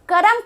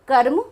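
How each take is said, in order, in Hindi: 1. र पूरे अक्षर की तरह बोला जाता है। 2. र म के साथ संयुक्त व्यंजन की तरह बोला जाता है। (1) "जो रेफ है, पदेन रा है, इनको हम पूरा रा बोल देते हैं" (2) "संस्कृत में इसका सही उच्चारण"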